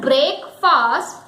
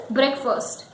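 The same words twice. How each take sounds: First: "break fast" as two slow words, BRAYK FAAST; full vowels in both "break" and "fast"; spelling pronunciation. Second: "breakfast" as BREK-fust; short e and weak second vowel in "breakfast"; correct breakfast. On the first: Teacher rejects reading by spelling, drawn-out "break fast". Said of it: "But it is not break fast". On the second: Teacher gives the correct word, "breakfast" as BREK-fust. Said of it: "it is breakfast". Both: Shown as a demonstration.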